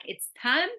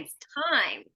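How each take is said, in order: First: Time without its final consonant; learner's pronunciation. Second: "time" closed on a clear final M; model pronunciation. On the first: Retold or imitated. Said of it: "So you would say, like". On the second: Shown as a demonstration. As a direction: finish "time" with lips shut on M. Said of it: "and we'd say".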